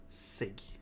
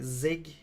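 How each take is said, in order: First: The word begins with a hissing s sound. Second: The word begins with a buzzing z sound. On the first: "like just sig" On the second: "like zig with a z"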